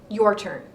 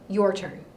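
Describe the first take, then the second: Both takes have the same delivery.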